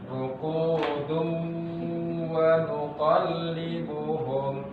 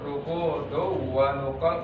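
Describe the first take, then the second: First: It is recited steadily, with the nasal sound held. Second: It is recited hurriedly, without holding the nasal sound. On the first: The speaker calls it right. "Kalau dibaca lanjut" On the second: The speaker calls it wrong. "nggak boleh dibaca seperti itu"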